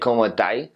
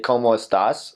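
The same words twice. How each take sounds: First: It is said the Chilean way. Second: It is said in standard Spanish.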